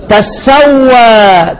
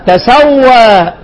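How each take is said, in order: First: تسوى said very slowly with a doubled s, tassawwa; slow reading demo. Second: تسوى said very slowly with a single light s, tasawwa; slow reading demo. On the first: Teacher drilling students on the doubled-sin reading of تسوى. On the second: Teacher drilling students on the light reading of تسوى. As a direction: draw تسوى out as tasawwa, keeping the sin light. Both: Shown as a demonstration. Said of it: "كام قراءة في هذه الكلمة".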